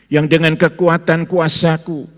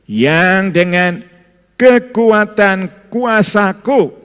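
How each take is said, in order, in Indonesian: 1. Akhiran 'ku' tidak mendapat penekanan khusus. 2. Akhiran 'ku' mendapat penekanan yang kuat.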